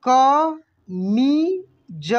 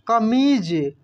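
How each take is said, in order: First: कमीज stretched very slowly, each syllable separate. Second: Said in the usual way. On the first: Shown as a demonstration. (कमीज को धीरे धीरे बोलिए) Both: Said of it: "कैसे पढ़ेंगे?".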